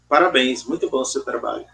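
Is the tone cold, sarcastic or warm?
cold. It is said coldly, without emotion.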